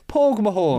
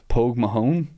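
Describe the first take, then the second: First: It is said with an Irish accent. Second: It is said with a flat American accent.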